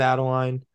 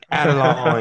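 First: The word is said in a plain accent. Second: The word is said in an Australian accent. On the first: The speaker calls it wrong. "You didn't say it properly" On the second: The speaker calls it right. "you have to say it in an Australian accent"

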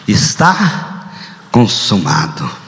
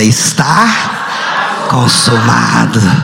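First: It is said at normal reading volume. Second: It is said very loudly and forcefully.

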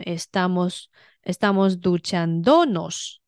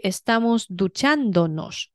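First: The stress is on the third syllable. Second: The stress is on the second syllable. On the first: The speaker calls it wrong. "如果你不标重音符号，它就会念成" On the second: The speaker calls it right. "所以"

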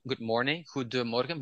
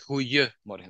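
First: The d sound in the middle is pronounced. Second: The d sound in the middle is dropped. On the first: This is the standard written form. "you have a D in the middle in an adjective" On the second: This is the colloquial spoken form. "But when we speak, we say goeiemorgen. We kick the D out in pronunciation"

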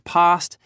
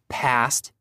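First: It is said with a British accent. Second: It is said with an American accent.

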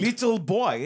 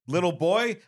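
First: It is said in an East German or Russian accent. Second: It is said in the speaker's ordinary accent.

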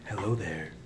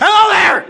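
First: The voice is calm and serene. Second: The voice is loud and excited.

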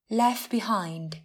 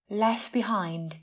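First: The t at the end of left is dropped. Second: The same.

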